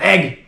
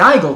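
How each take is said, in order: First: The name is slurred into one short syllable. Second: The name is sounded out in full syllables. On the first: The speaker calls it right. "you just slur it so hard" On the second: The speaker calls it wrong. "you want to say Eigel because it's, you know, you sound it out if you're an English speaker"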